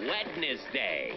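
The word is said in a fancy, elaborate way. The speaker calls it right. "Just sounds fancy, doesn't it?"

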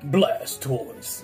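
It is said in a put-on impression voice.

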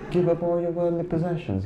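It is said in a put-on British accent. A charming foreigner says it and sounds wise. "if a British dude tells you"

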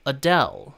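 It is said with English pronunciation. "영어로는요 이렇게 발음을 합니다"

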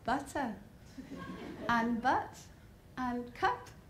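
The words are in a posh accent with spread lips. This is the adapted way learned to speak properly. The speaker calls it right. "I had to say ... I cannot say those words properly without a big smile on my face"

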